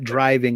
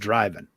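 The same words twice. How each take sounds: First: The word has a standard, non-Southern pronunciation. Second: The word has a Southern US pronunciation. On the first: "I'm not driving" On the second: "I'm driving. ... I drop R's and G's when I'm down there"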